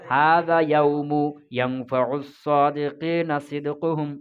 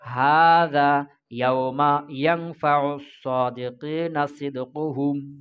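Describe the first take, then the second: First: The word yawm ends with a u vowel. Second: The word yawm ends with an a vowel. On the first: The word inflects as a nominative predicate. "যদি মুরাব করো তাহলে কিভাবে পড়তে হবে" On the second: The word is fixed and does not inflect. "মাপনি করা জায়েজ আল ফাতহি"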